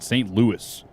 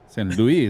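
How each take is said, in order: First: Louis is said the American way, with S. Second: Louis is said the French way, without S. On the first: "You got to pronounce that S like an American" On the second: "that's français"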